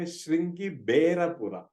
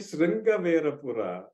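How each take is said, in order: First: The middle consonant is a b sound. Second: The middle consonant is a v sound. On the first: It follows the southern version of the text. "If you are reading the southern recension, they will say" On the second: It follows the northern version of the text. "then you are reading the northern recension of Ramayana"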